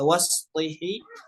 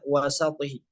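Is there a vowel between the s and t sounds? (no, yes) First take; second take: no; yes. First: The s and t sounds run together. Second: A short vowel separates the s and t. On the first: This is the usual reading. "pada kata wasṭihi" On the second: This is another accepted reading. "sebagian riwayat boleh dibaca juga dengan kata wasatihi"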